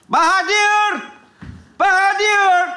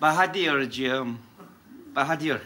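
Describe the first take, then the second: First: High, drawn-out summons; stretched, high-pitched name call. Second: Low, quiet coaxing of the name; hushed, low-pitched appeal; soft address. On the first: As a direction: call the janitor from afar. Calling for the school janitor. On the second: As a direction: say the name much lower and softer. Softly addressing the janitor afterwards. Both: Acted.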